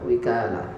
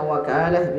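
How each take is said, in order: First: The first vowel is a front 'i' sound. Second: The first vowel is an open 'a' sound. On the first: "wa kasriha ... bisa dibaca wika, wikalah" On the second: "bi fathil wawi ... Bisa dibaca wakalah"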